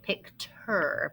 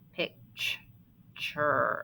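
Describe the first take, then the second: First: The middle consonant is a plain t sound. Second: The middle consonant is a ch sound. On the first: The speaker calls it wrong. "technically, we should say picture, but we don't say it like that" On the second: The speaker calls it right. "this t is really saying the ch"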